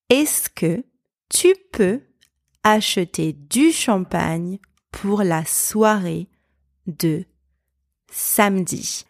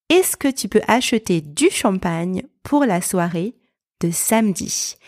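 First: Phrase-by-phrase demo. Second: Said in the usual way. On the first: Shown as a demonstration. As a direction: break it into small chunks for learners to repeat. Same example repeated phrase by phrase.

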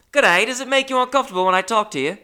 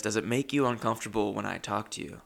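First: Loud, high, quick cartoon Australian; hammed-up, badly faked Australian accent at a high pitch. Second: Said in the usual way. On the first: Gym acquaintance greets and questions you, in an overblown bad Australian accent. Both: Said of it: "I can't do the Australian accent".

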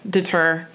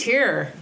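First: Deter pronounced dih-TUR, like "stir". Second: Deter pronounced dih-TEER, like "tear" in crying. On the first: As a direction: end deter on TUR rather than TEER. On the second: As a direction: end deter on TEER rather than TUR. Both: Shown as a demonstration. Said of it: "I thought it was deter".

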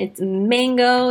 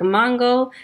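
First: "mango" said very slowly as the mockers insisted; slow, teasing "it's mango" correction; mocking correction. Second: "mango" said slowly in the way she used to say it; drawn-out "mango", her own old way; her old pronunciation. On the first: Classmates mocking her accent, slowly correcting "mango". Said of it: "you have an accent, it's mango". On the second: Shown as a demonstration. Wisconsin girl saying "mango" her old way, slowly. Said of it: "when I used to pronounce mango".

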